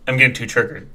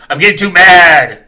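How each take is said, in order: First: Said in the usual way. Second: Louder, half-joking outburst; mock fuming. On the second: Real, not acted. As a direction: blow up a little, playfully.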